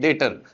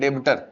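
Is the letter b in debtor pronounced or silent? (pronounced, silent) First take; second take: silent; pronounced. First: The b sound is silent in the middle. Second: The b sound is pronounced in the middle. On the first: The speaker calls it right. "डेबिटर नहीं, डेटर। B क्या होता है, silent." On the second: The speaker calls it wrong. "कुछ बच्चे इसको क्या बोलने लग जाते हैं"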